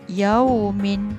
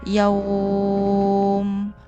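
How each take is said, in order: First: The 'au' vowel sound is kept short. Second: The 'au' vowel sound is held long. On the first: The reader joins this word to the next. "kita boleh membacanya tanpa panjang" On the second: The reader stops on this word. "kita perlu membacanya dua atau empat atau enam harakat"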